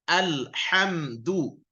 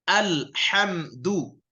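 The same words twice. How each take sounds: The two takes are said the same way.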